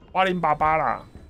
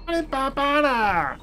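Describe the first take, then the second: First: It is said in an ordinary, natural speaking voice. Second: It is said in a grating, irritating put-on voice. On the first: The speaker calls it right. "就是很正常这样一般讲话" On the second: The speaker calls it wrong. "有些人讲话那个声音你就听不下去"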